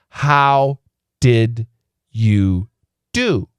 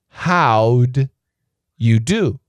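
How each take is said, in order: First: The word 'did' is said in full. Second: The word 'did' is contracted into 'how'd'. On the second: "With a contraction"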